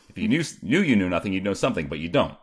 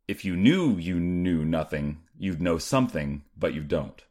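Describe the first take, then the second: First: It is said very fast. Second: It is said more slowly.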